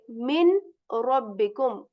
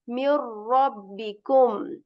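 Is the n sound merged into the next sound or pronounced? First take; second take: pronounced; merged. First: The n sound is clearly pronounced before r. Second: The n sound merges into a doubled r. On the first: The speaker calls it wrong. "We will not say min rabbikum" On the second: The speaker calls it right. "We will simply say m and ra"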